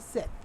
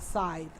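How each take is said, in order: First: The word is said as Sith. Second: The word is said as scythe. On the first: The speaker calls it wrong. "I always say that wrong" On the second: The speaker calls it right. "It's a scythe, not a Sith"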